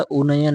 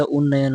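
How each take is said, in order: First: उन्नयन with only a single n; wrong pronunciation. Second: उन्नयन with a held double n; correct pronunciation. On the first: Teacher showing the wrong spelling, single-n "unayan". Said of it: "नहीं होता". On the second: Teacher giving the correct spelling, doubled-n "unnayan". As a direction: say उन्नयन as "un-nayan". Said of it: "उन्नयन होता है". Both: Shown as a demonstration.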